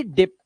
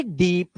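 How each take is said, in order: First: डिप with a short i, "dip"; teacher's model of short-i डिप; short vowel. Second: Teacher's model of long-ee डीप; long vowel. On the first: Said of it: "एक तो होता है जी डिप". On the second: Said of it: "एक होता है जी डीप". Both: Shown as a demonstration.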